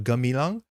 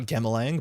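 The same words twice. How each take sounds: First: Gamilang as guh-mee-lang; big me. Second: Gamilang as gam-uh-lang; flat a and swallowed middle in Gamilang; wrong reading. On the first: Streamer correcting the name, careful Gamilang. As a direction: give Gamilang a clear MEE in the middle. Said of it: "that is a big me". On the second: Streamer showing what to avoid, anglicized Gamilang. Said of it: "so not Gamilang". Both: Shown as a demonstration.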